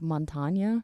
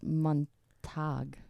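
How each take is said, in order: First: The name ends with an added 'nya' syllable. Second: The name ends sharply with an 'ag' sound. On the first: The speaker calls it wrong. "we always call him like Montagna" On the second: The speaker calls it right. "and it's Montag"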